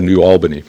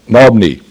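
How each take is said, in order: First: The name is said as two full words. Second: The name is squeezed into two syllables. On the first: This is how the name is written. "Spelled New Albany" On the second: This is how a local person said it. "he really pronounced it Nobney"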